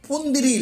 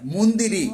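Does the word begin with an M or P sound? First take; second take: P; M. First: The word begins with a p sound. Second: The word begins with an m sound. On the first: The speaker calls it wrong. "புந்திரி இல்லை" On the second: The speaker calls it right.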